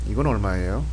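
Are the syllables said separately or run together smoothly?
together. The syllables flow together smoothly without breaks. It sounds like a native speaker. The speaker calls it right. "It would have to flow together"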